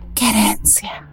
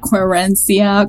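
First: It is said with a Spanish accent. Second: It is said with an American accent.

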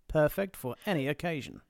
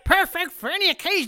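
First: It is said in a smooth, polished sales voice. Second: It is said in a twangy, drawling impression voice. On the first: "Do it in a wine voice. Yes. QVC wine voice" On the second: "I can do it like with the Tiger King if you prefer"

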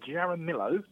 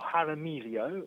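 First: The name is said with English sounds. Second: The name is said with Spanish sounds.

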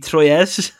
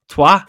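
First: It sounds like 'troy' with an s. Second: It sounds like 'twah' with no s. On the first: The speaker calls it wrong. "If you were to pronounce that word as it's written, it would be Troyes, right? As in Troy" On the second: The speaker calls it right. "it's not Troyes, it's Trois"

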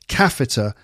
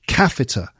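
No difference in how they are said.

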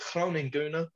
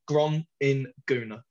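First: The name is said with a Dutch pronunciation. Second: The name is said with an English pronunciation. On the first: "if you want to pronounce it Dutch way" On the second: "if you want to actually be able to spell it"

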